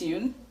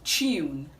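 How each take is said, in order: First: It begins with a plain t sound. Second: It begins with a ch sound. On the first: "This word is commonly pronounced" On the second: "the right to pronounce this word is tune ... The sound we have there is the ch sound"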